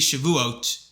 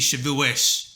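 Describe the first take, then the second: First: It uses the secular Modern Hebrew pronunciation. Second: It uses the religious community's traditional pronunciation. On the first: This is how non-religious people and Hebrew speakers say it. "In Hebrew, it'd be Shavuot" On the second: This is how religious people say it. "But to religious people, it'd be Shavuos"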